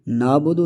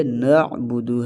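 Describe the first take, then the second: First: "نابدو" with plain alif in place of ain; missing ain. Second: "نعبدو" with a distinct throat ain; clear ain. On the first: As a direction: say "نابدو" as naa-budu, no throat sound. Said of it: "عین ظاہر نہیں ہو رہا". ("نابدو" عین ظاہر کیے بغیر) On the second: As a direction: slowly bring out the ain in "نعبدو", na'-budu. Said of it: "عین کو واضح کرنا ہے". ("نعبدو" عین واضح کر کے) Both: Shown as a demonstration.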